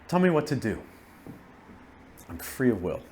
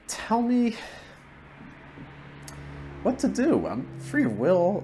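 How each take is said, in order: First: There is a pause after the word do. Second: There is no pause after the word do. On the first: "with the pause on the periods" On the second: "No pauses on periods or commas"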